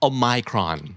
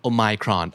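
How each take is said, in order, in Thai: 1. ออกเสียงแบบสำเนียงอังกฤษครับ 2. ออกเสียงแบบสำเนียงอังกฤษครับ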